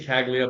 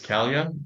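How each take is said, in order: First: A hard g sound is heard mid-word. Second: No g sound is heard mid-word. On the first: The speaker calls it wrong. "I've been pronouncing it wrong" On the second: The speaker calls it right. "It's it's it's it's Calia"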